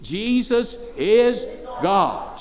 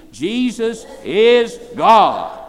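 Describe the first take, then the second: First: Slow, drawn out, each word weighed; a first slow call for the crowd to echo; slow call and response. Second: Louder and higher, slow, each word hammered; a louder second call for the crowd to echo; loud slow repeat. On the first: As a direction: lead the room through it slowly. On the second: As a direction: make them shout it back with you. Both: Shown as a demonstration. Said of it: "Say it again".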